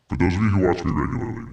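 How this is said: It is said in a put-on serious voice.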